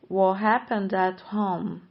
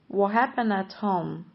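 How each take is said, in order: The two takes are said the same way.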